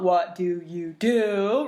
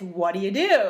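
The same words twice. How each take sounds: First: The words are said separately. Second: The words are run together.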